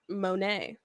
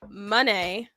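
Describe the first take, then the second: First: The name does not sound like money. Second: The name sounds like the word money. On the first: This is the more sensible pronunciation. "it makes more sense to say M- Monet" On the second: This is how the person herself said it. "when she said it, it was like money"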